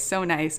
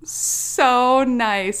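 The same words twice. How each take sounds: First: Said in the usual way. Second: "so nice" drawn out, high and loud; emphatic SO NICE. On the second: Real, not acted. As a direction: lean hard and long on "so nice". Emphatic first take, then plain repeat.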